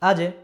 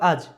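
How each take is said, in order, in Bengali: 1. শেষের j একটি ঝটকাযুক্ত ঝাঁকুনি দিয়ে ছাড়া হয়। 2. শেষের j কোনো ঝটকা ছাড়াই থেমে যায়। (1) "একটু ধাক্কা দিয়ে একটু ঝটকা দিয়ে পড়তে হয়" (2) "যদি কলকলা না হতো তাহলে উচ্চারণ কি হতো?"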